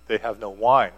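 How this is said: It is said in a pressing, expectant tone. The listener is expected to fix the problem. "what are you going to do about it?"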